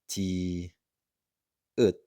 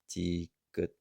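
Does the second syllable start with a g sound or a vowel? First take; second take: vowel; g sound. First: The second syllable starts with a vowel. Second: The second syllable starts with a g sound. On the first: The speaker calls it wrong. "it is not a ti ut" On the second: The speaker calls it right. "but instead ti gut"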